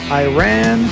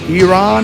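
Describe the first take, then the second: First: The name is said in an anglicized way. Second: The name is said in a native-like way. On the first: The speaker calls it wrong. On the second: The speaker calls it right.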